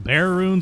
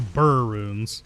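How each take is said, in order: First: The first word sounds like 'bear'. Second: The first word sounds like 'burr'. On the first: "it's either call them bear runes or burr runes" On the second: "or burr runes"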